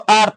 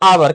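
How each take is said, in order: First: It is said as one syllable, 'ar'. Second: It is said as two syllables, 'a-war'. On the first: The speaker calls it wrong. "ऐसे नहीं आता" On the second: The speaker calls it right. "सीधा सीधा बोलना आवर"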